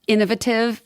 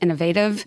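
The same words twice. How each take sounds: First: It is said with a British pronunciation. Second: It is said with an American pronunciation.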